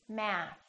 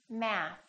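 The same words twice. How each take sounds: The two takes are said the same way.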